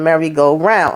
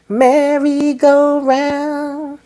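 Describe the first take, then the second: First: Said in the usual way. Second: High, long-held sung notes; sung, sung song line. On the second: Retold or imitated. Breaking into a favourite [name] song, sung high and slow. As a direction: croon it slowly, stretching each syllable. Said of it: "That was my song, [name]".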